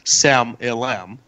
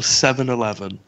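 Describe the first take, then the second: First: The words are clipped to sound like 'Sam Ilam'. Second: Each word is pronounced fully and clearly.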